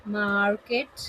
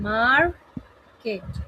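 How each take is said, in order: First: Said in the usual way. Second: "market" as a long MAR, a pause, then KET; split into syllables. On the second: Shown as a demonstration. Teacher clapping out syllables, "market" split in two with a gap. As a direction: break "market" into two separate beats. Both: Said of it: "clap for every syllable of the word".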